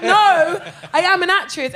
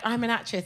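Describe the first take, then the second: First: Loud, high "No", then insistent "I am"; emphatic insistence. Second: Soft, understated admission; low-key reveal. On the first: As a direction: push back hard on "No" and "am". Insists after being disbelieved. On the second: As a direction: state it quietly, without pushing. First reveal, calm and low-key. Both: Retold or imitated.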